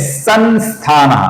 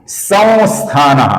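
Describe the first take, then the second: First: The nasal is said as a clear n sound. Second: The nasal is a very light nasalized vowel. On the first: The speaker calls it wrong. "अपूर्ण न" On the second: The speaker calls it right. "अनुस्वार का अपूर्ण वो ऐसा उच्चारण करते हैं जो बहुत ही हल्का उच्चारण"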